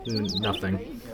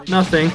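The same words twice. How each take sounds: First: Hushed trailing off. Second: Higher, louder, flatly final; firm and loud. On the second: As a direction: cut yourself off with a firm denial. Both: Real, not acted. Catches himself mid-joke.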